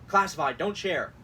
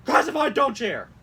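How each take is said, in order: First: Said in the usual way. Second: High, loud urgent warning; mock all-caps shout. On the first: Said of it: "Then shares it to anyone". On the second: Host reads an email heading, shouting it. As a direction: yell it like an alarm. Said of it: "certain things that, like, is being all caps".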